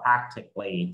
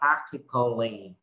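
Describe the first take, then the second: First: The c and l join with no vowel. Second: A full vowel sounds between the c and l. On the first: The speaker calls it right. "mất cái nguyên âm ... chúng ta sẽ đọc là practically đó" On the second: The speaker calls it wrong. "chúng ta sẽ không đọc là practically"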